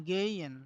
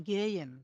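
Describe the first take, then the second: Both takes have the same delivery.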